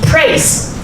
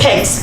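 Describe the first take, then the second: First: The r sound after the p is present. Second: The r sound after the p is dropped. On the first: The speaker calls it right. "P R A I S E, praise" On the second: The speaker calls it wrong. "If you say pace"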